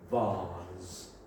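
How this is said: It is said with a British accent.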